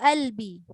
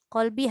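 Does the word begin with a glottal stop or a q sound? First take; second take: glottal stop; q sound. First: The word begins with a glottal stop. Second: The word begins with a q sound.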